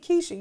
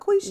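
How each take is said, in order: First: The name begins with a plain K sound. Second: The name begins with a Kw sound. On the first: The speaker calls it wrong. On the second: The speaker calls it right.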